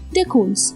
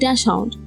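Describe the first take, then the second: First: It is pronounced the German way. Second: It is pronounced following the English spelling. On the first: The speaker calls it right. "embrace the German roots of these dogs" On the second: The speaker calls it wrong. "tend to go off the spelling"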